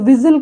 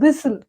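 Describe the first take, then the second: First: The middle consonant is a buzzing Z sound. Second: The middle consonant is a hissing S sound. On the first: The speaker calls it wrong. "ఇది విజిల్ కాదు" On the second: The speaker calls it right.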